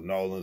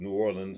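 First: The city name gets the locals' own pronunciation. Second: The city name gets a general, non-local pronunciation.

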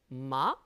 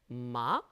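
The two takes are said the same way.

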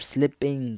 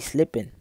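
First: The word is said with careful, clear enunciation. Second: The word is said casually, without careful enunciation.

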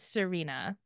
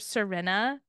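First: The name is said with an English pronunciation. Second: The name is said with a Romanian pronunciation. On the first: The speaker calls it right. "other people are probably saying Serena" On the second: The speaker calls it wrong. "because in Romania, my son has a girl in his class called Serena"

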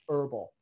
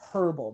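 First: The word starts without an H sound. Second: The word starts with a clear H sound. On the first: "we pronounce it herbal, that we drop the H" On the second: "There should be a hard H right there"

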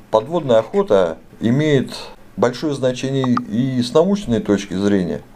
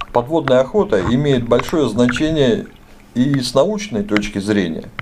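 No difference in how they are said.

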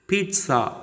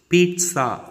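No difference in how they are said.

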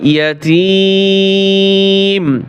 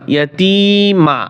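First: The word ends on a bare m. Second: The word ends with a vowel after m. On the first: The reader stops at this word. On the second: The reader continues without stopping here.

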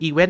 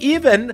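First: The stress falls on the second syllable. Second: The stress falls on the first syllable. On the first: The speaker calls it right. "น่ะถูกแล้วนะฮะ" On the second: The speaker calls it wrong. "เขาอยากจะทำดัดจริตเป็นสำเนียงฝรั่ง"

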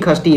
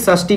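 First: The word begins with a kh sound. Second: The word begins with an sh sound. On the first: This is the everyday regional form of the word. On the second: This is the standard form of the word.

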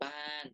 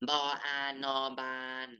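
First: The final syllable has a falling tone. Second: The final syllable has a level mid tone.

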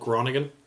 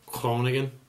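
First: The name is said with English sounds. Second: The name is said with Dutch sounds.

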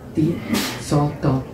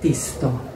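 First: Said with an extra vowel between sz and t. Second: Said with no vowel between sz and t.

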